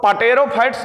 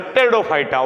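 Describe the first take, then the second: First: "pterophytes" with the P wrongly sounded; wrong pronunciation. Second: "pteridophyta" begun straight on the T; silent P. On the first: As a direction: read "pterophytes" as pa-tero-phytes. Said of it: "pterophytes मत पढ़िएगा". ("pterophytes" को पटेरोफाइट्स जैसा, P बोलकर गलत पढ़ना) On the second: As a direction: say "pteridophyta" as teri-dophyta, dropping the P. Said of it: "तो पी silent word होता है". ("pteridophyta" में P silent, टेरिडोफाइटा) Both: Shown as a demonstration.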